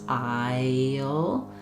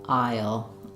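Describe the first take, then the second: First: The word is drawn out slowly, every sound heard. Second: The word is said quickly at normal speed. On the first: "slow it down and include all of those sounds" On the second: "try to speed that back up"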